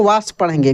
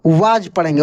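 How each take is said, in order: First: "वास" ending in an s sound; wrong pronunciation. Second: "वाज" ending in a j sound; correct taught pronunciation. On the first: Teacher warning learners off a misreading, "वास" wrongly ending in s. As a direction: say "वास" with a final s instead of a j sound. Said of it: "गलत हो जाएगा". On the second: Teacher showing learners the reading, "वाज" ending in j. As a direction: say "वाज" with a final j, not s. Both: Shown as a demonstration.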